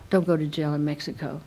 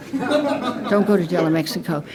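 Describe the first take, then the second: First: Said in the usual way. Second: "Don't" pushed with a laugh; emphatic warning. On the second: Shown as a demonstration. Warning the meeting off Mexican jails, emphatic with a laugh. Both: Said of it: "repeated as warning".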